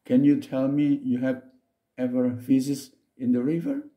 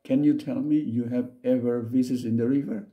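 First: Slow read. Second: Said in the usual way. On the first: Shown as a demonstration. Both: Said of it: "Saya ulang lagi".

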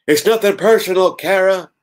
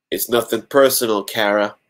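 First: Louder, much higher hammed-up wrestler voice; punning wrestler impression, loud and high; Stone Cold. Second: Level, matter-of-fact coldness; stone cold. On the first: Lois as a wrestler to Kara, loud Stone Cold. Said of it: "Stone cold voice, get it?". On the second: A narrator's reading. Lois to Kara after stabbing her, stone cold. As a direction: deliver it stone cold, unmoved. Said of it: "in a stone cold voice".

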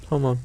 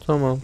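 Both takes have the same delivery.

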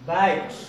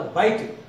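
First: "bite" leaning towards "bait"; A-glide in "bite". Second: Counter-example "bite", vowel as in "eye"; "bite" with a wide ah-ee vowel; wrong "bite". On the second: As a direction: say "bite" with an open eye glide. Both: Shown as a demonstration. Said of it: "Don't say the bite".

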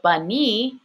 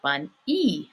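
First: Bunny as one word with long EE; bunny, unbroken, lengthened ending. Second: Bun-e broken into bun, then long EE; split-off E. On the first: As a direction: say bunny, holding the final EE. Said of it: "sounds like bun-e". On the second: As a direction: pause before the e in bun-e. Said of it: "bunny sounds like". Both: Shown as a demonstration.

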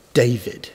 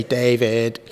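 First: David stressed on the first syllable, DAvid, the second weak; DAvid, strong then weak. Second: David with the stress on the second syllable, daVID; wrong stress on David. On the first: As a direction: hit DA in David, let vid fall away. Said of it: "one syllable louder than the other". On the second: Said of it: "I didn't say". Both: Shown as a demonstration.

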